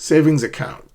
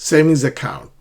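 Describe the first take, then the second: No difference in how they are said.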